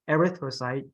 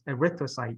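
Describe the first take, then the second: First: The stress falls on another syllable. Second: The stress falls on the second syllable. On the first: The speaker calls it wrong. "not erythrocyte" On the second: The speaker calls it right. "the emphasis on the second word"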